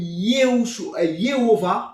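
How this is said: The name is pronounced with French sounds. "comme en français"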